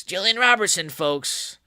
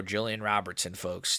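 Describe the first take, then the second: First: Mock hype announcement. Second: Said in the usual way. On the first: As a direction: hype the fighter up for the crowd. Same announcement, hyped second time.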